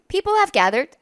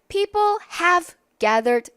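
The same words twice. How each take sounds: First: The words run past quickly and reduced. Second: Each word is said slowly and distinctly. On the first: "이러면서 빠르게 지나가니까" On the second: "이렇게 또박또박 읽어주지 않잖아요"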